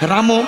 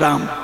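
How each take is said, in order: First: The word ends on an added vowel sound. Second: The word ends on a consonant sound. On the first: It is recited in verse meter. "পদাবলিতে পয়ার ছন্দে ... রামটা রাম না হয়ে রামও হবে" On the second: It is read as prose. "আবার দশরথ নন্দন যখন রাম বলবো তখন রামও বলবো না, তখন হবে রাম"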